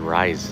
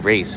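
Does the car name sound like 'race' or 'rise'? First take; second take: rise; race. First: The vowel sounds like the one in 'rise'. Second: The vowel sounds like the one in 'race'. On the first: This is how the speaker says the name. "but I pronounce it rise" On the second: This is how other people say the name. "Somebody said they pronounce it race"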